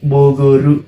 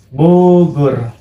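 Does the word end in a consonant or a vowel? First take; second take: vowel; consonant. First: An extra u vowel follows the final r. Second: The word ends on a bare r sound. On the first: This is how a Japanese speaker would say it. "tambahin U jadi Bogoru" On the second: This is the ordinary local pronunciation. "Sensei punya kata Bogor"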